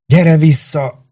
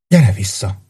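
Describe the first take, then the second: First: Desperate plea. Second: Said in the usual way. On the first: Acted. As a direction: stretch out "Gyere vissza!" in despair. Halott kedveséhez könyörög. (magasabb, lassú, kétségbeesett "Gyere vissza!")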